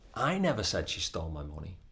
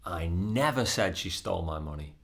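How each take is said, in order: First: The stress falls on the word I. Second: The stress falls on the word never. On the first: Someone else said it, not the speaker. "as in somebody else might have said it, but it wasn't me" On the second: The speaker denies ever having said it. "That is emphasizing that it's not something that I said"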